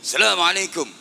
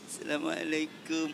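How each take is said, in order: First: The greeting is said in a high, raised pitch. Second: The greeting is said in a low, subdued pitch. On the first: "dengan nada tinggi" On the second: The greeting follows the humble local custom. "santri ketemu kiai lebih-lebih"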